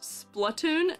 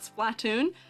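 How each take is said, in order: First: The first syllable sounds like 'splut'. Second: The first syllable sounds like 'splat'. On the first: The speaker calls it right. "is pronounced Splatoon" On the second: The speaker calls it wrong. "not Splatoon"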